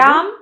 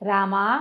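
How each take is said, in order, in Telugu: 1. ఈ పేరు హల్లు m తో ఆకస్మికంగా ముగుస్తుంది. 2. ఈ పేరు దీర్ఘంగా సాగదీసిన a తో ముగుస్తుంది. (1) "రామ్ అంటే పలకడు" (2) "రామా అంటే పలుకుతాడు"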